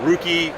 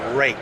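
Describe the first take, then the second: First: The name has two syllables, like 'rookie'. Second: The name has one syllable, like 'rake'. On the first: The speaker calls it wrong. "I even got it wrong for three and a half years" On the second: The speaker calls it right. "It's pronounced rake"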